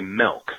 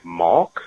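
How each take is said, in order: First: The vowel sounds like the e in 'set'. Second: The vowel sounds like the a in 'father'. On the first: "I say milk with an E, M-E-L-K" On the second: "how I say it, malk"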